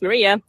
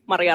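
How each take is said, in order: First: The name is said with English pronunciation. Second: The name is said with Finnish pronunciation.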